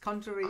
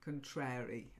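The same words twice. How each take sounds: First: The stress is on the first syllable. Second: The stress is on the second syllable. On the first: It means opposite in nature. "contrary to popular belief" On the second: It means always disagreeing or contradicting. "if you are contrary, that's when we say contrary"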